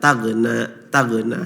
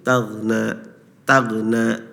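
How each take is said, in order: First: The 'gh' sound has a bouncing echo. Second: The 'gh' sound is held smoothly without an echo. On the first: The speaker calls it wrong. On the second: The speaker calls it right.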